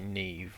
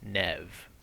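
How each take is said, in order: First: The name has a long vowel, like 'Neev'. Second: The name has a short vowel, like 'Nev'. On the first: This is how the speaker expected it to be pronounced. The speaker calls it wrong. "I would have thought it would be Neve" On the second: This is how the name is actually pronounced. The speaker calls it right. "it is a somewhat unusual way to pronounce N E V E"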